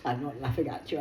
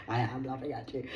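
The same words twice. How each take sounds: First: Said in the usual way. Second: Am pressed with a small push; stress on am. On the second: Shown as a demonstration. Correcting herself to the viewer, teasing stress on am. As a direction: lean on am, half teasing.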